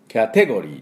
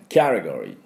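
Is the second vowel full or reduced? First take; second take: full; reduced. First: The second vowel is a full e sound. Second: The second vowel is a short, weak e. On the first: The speaker calls it wrong. "キャテゴリーと言いません" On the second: The speaker calls it right. "ほとんどちょっとえって出すだけ"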